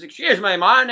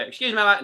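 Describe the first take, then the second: First: Loud put-on American accent; brash tourist twang, bad American impression; a failed stab at an American accent. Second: High, loud mock American; a second shaky go at an American accent; attempted American accent. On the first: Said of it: "I won't even do the accent". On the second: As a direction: tries the American twang again. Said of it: "that's Australia".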